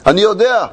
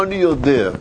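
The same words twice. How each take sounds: First: Said in the usual way. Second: אני יודע said low and firm, with the weight on יודע; stress on יודע. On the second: Shown as a demonstration. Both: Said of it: "פה הוא מדגיש לו".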